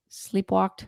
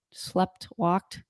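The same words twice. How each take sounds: First: "sleepwalked" as one word, sleep plus walked; corrected word. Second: "slept walked" as two words, past tense on both; mispronounced. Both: Real, not acted.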